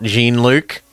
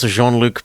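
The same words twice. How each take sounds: First: The name is said with an English pronunciation. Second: The name is said with a French pronunciation. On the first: The speaker calls it wrong. "not pronounced like that" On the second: The speaker calls it right. "It's a French name"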